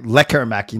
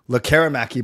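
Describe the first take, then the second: First: The stress is on the first syllable. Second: The stress is on a later syllable. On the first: "I've heard the emphasis on the on the front on the front like"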